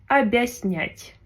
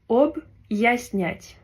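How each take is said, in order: First: The first syllable runs smoothly into the next. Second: A small break separates the first syllable. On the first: The speaker calls it wrong. "si on n'avait pas de signe dur, on aurait dit" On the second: The speaker calls it right. "comme une petite pause et diviser deux syllabes"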